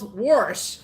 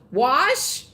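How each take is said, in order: First: The word is said with an r sound. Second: The word is said without an r sound. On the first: "W O R S H" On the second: "W A S H"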